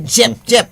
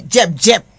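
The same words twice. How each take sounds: First: "Jep, Jep" said louder and higher with a soft zh sound; soft j demo. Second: "Jep, Jep" said louder with a hard dj start; dj sound demo. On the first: Teacher showing J as opposed to sh. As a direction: soften the J in "Jep" to zh. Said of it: "as opposed to sh". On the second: Teacher contrasting Creole J sounds. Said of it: "the difference between the J". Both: Shown as a demonstration.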